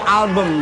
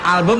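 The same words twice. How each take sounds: First: It is said with a posh British pronunciation. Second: It is said with a plain Indonesian pronunciation. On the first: The speaker calls it right. "Inggris-Inggris yang bener British saya" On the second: The speaker calls it wrong. "bukan album"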